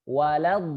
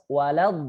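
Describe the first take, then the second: The two takes are said the same way.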